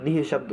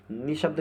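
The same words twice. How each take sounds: First: निह शब्द with an audible h after "ni"; correct form. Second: नि शब्द with a bare "ni", no breath sound; wrong form. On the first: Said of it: "निह शब्द होता है". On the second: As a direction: say नि शब्द without any h. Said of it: "नि शब्द नहीं होता". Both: Shown as a demonstration.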